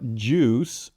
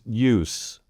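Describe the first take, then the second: First: It opens with a strong voiced J sound. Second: It opens without a strong J sound. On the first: The speaker calls it right. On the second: The speaker calls it wrong.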